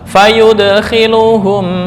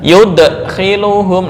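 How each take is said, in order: First: It flows flat and smooth without a stop. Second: It is cut off with a glottal stop. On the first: The speaker calls it right. "Jadi datar langsung" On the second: The speaker calls it wrong. "nggak boleh diakhiri dengan hamzah ... nah itu yang nggak boleh"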